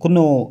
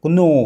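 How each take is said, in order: First: A k sound is pronounced before the n. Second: A k sound is pronounced before the n.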